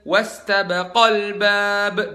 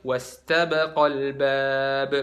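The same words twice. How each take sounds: First: The long vowel after 'baq' is stressed. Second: The long vowel after 'baq' is not stressed. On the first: Two people did it. The speaker calls it right. "dua orang" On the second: One person did it. The speaker calls it wrong. "jadi bukan"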